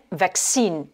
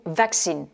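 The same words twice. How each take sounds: First: VAC-cine, weight on the opening syllable; first-syllable stress. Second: Vac-CINE, weight on the final syllable; second-syllable stress. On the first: Teacher shows learners both accents, "vaccine" stressed on VAC. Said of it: "l'accent sur la première syllabe". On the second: Teacher shows learners both accents, "vaccine" stressed on CINE. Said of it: "ou sur la deuxième". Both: Shown as a demonstration.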